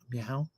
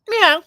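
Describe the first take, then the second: First: It is said softly, imitating Tracy. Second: It is said loudly, not softly.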